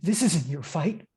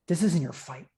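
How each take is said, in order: First: The voice sounds genuinely afraid. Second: The voice sounds calm, without fear.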